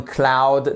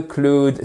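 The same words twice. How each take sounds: First: "cloud" with an ow diphthong, as klowd; drawn-out ow sound in "cloud"; correct English cloud. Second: "cloud" with an oo vowel, as klood; wrong oo sound in "cloud"; mispronounced cloud. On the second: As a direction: say "cloud" the French way, rhyming with food. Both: Shown as a demonstration. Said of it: "Cloud n'existe pas en anglais".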